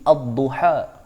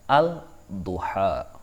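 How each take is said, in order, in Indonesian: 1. Bunyi l melebur ke konsonan ganda yang mengikutinya. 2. Bunyi l dibaca jelas sebelum konsonan itu. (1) "cara bacaan contoh di sini" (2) "Tidak boleh membaca"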